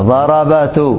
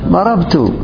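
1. يأتي حرف علة بعد الباء، فتصير أربع حركات متتالية. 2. لا يأتي بعد الباء أي حرف علة. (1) "ستقول هكذا ضربات، فيها ثقل" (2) "سكنوا للخفة. ضربت أيهما أسهل في النطق"

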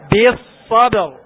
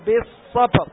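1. الباء مجهورة وقوية مع قلقلة. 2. الباء ضعيفة، بدون جهر وقلقلة. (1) "هكذا" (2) "ما تقول ... خطأ"

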